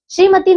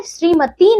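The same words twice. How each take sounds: First: श्रीमती said as "shrimati" with a clear sh; correct pronunciation. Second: श्रीमती said as "srimati", plain s in place of sh; teacher shows the incorrect श्रीमती with a plain s; wrong pronunciation. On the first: Teacher correcting children: श्रीमती said properly with sh. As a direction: stress the sh sound in श्रीमती. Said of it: "नहीं बच्चों श्रीमती होता है". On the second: Teacher showing children the common error: श्रीमती said with s. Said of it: "नहीं बच्चों". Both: Shown as a demonstration.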